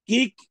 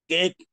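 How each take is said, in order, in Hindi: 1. स्वर लंबी 'ee' ध्वनि है। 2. स्वर 'e' ध्वनि है।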